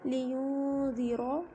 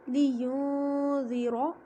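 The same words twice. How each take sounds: First: ज़ीरो very slow with a thick, full r and a rising end; heavy r again. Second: ज़ीरो very slow, the r full and heavy, drawn out; heavy r recitation. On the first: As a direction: answer your own question by drawing out ज़ीरो with a heavy r. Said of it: "इसको क्या पढ़ेंगे? ... मोटा पढ़ेंगे इसको". (ज़ीरो को बहुत धीमे, मोटी रॉ के साथ) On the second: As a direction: recite ज़ीरो slowly with a thick, full-mouthed r. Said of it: "रॉ के ऊपर ज़बर है तो आप इसको मोटा पढ़ेंगे". (ज़ीरो को धीरे-धीरे, रॉ को मोटा भरकर पढ़ें) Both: Shown as a demonstration.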